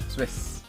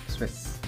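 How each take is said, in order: Both takes have the same delivery.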